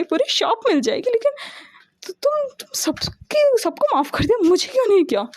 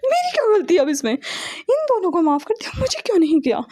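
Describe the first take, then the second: First: Whiny pleading. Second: Indignant protest. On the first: Brother whines for forgiveness. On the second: Brother protests sister's unfairness. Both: A narrator's reading.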